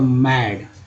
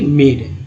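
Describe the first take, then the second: First: The vowel is a short open 'a'. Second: The vowel sounds like 'ay'. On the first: The speaker calls it right. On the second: The speaker calls it wrong.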